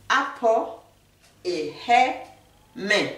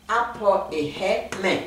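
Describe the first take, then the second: First: Apo, et he, men said syllable by syllable with pauses; teacher splits apo et he men into pieces for the viewers; Akan word demo. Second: Apo et he men said whole, slowly, in a careful teaching voice; teacher repeats Apo et he men in one slow careful run; Akan phrase demo. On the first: A teacher breaks the Akan phrase into slow syllables. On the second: A teacher to viewers, saying the Akan phrase slowly. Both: Shown as a demonstration. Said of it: "Quand on veut dire j'ai chaud, on dit".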